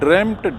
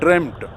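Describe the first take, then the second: First: The vowel is a short e sound. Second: The same.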